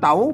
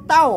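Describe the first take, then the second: First: The syllable is said on a rising tone. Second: The syllable is said on a falling tone. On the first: "ใส่ไม่จรวา" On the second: "ใส่ไม่โท"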